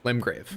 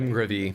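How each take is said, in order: First: The name ends cleanly on the 'v' sound. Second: The name ends with an extra 'ee' sound. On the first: The speaker calls it right. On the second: The speaker calls it wrong. "I pronounce it"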